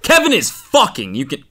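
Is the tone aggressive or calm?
aggressive. It is said aggressively.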